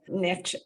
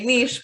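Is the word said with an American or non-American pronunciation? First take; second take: American; non-American. First: It is said the American way. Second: It is said the speaker's non-American way.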